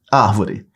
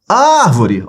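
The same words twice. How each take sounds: First: Said in the usual way. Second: High call on "Árvore", long "Ár". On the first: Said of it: "Separa as sílabas". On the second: Shown as a demonstration. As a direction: call "Árvore" across the street, stretching "Ár". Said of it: "você vai chamar". (chamando de longe, "Árvore" com "Ár" prolongado)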